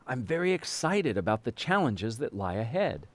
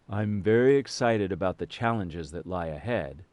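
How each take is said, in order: First: It is said in a lively, varied voice. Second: It is said in a flat, monotonous voice.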